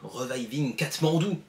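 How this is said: The name is said with a French accent.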